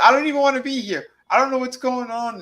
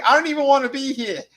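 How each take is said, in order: First: Put-on high, fast whiny girl voice; high mock girlish whine; mocking the blonde. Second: High, loud whiny quote; high-pitched mocking whine; mocking the blonde. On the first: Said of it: "she goes". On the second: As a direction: squeal it like a bored girl. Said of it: "the blonde's like".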